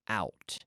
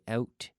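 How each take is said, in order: First: It is said with an American vowel. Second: It is said with a Canadian vowel. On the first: "in the United States they say out" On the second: "We say out"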